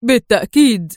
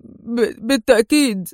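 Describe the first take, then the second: First: Emphatic, louder agreement; eager exclamation. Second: Halting, effortful agreement; hesitant stammer. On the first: Man eagerly joining Adham, emphatic exclamation. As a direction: call it out without hesitation. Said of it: "هتف الرجل". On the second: Man agreeing with difficulty to the stranger, hesitant stammer. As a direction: stammer on the first sound, then get the word out. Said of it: "في صعوبة متمتما". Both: A narrator's reading.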